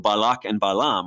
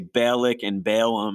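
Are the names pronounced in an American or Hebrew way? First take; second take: Hebrew; American. First: The names are pronounced the Hebrew way. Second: The names are pronounced with an American accent. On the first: "But in Hebrew" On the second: "with my Rochester, New York accent"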